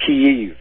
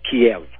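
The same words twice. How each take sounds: First: "Kyiv" pronounced KEE-yiv; corrected pronunciation. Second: "Kiev" pronounced kee-EV; rejected pronunciation. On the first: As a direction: say "Kyiv" with the first syllable stressed, KEE-yiv. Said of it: "It's pronounced Kyiv". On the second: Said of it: "not Kiev". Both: Shown as a demonstration.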